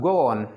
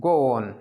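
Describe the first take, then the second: No difference in how they are said.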